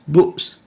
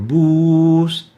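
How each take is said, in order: First: The vowel is cut short and interrupted. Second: The vowel is held long and smooth. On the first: The vowel has a hamza. "When adding a hamza on this vowel, it becomes boos" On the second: The vowel has no hamza. "This example is for boos"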